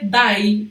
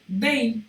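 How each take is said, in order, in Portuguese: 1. A vogal soa como 'eye'. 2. A vogal soa como 'ay'. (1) "eu não vou ler die" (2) "eu vou ler day"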